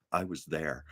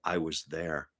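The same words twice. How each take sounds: First: Low, quiet, flat-out dry; deadpan retort. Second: Low, soft, bone-dry delivery; deadpan understatement. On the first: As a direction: say it dead straight, much softer. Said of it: "said so straight and so deadpan". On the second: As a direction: drop it flat and quiet. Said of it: "Stan just deadpans and goes". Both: Retold or imitated.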